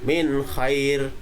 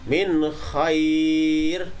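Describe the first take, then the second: First: The vowel is held only briefly. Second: The vowel is held for a medium length. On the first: "dua harokat, hanya dua ketukan" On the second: "itu berarti ada empat harokat"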